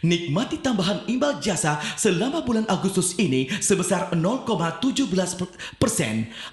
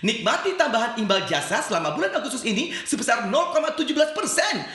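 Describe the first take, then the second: First: The intonation is pitched at older listeners. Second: The intonation is pitched at younger listeners. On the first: It is aimed at retirees. "intonasi untuk uh, orang-orang tua gitu ya" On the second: It is aimed at young people. "kalau tadi lebih anak muda"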